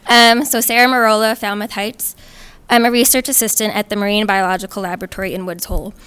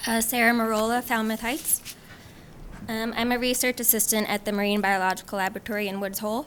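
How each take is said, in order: First: Louder, clearly carrying self-introduction; raised volume, loudest at the start; closer to mic. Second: Soft, quiet self-introduction; too far from mic. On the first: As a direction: restart the introduction at fuller volume. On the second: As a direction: introduce yourself softly, barely carrying. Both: Real, not acted. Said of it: "Sarah, closer to the mic".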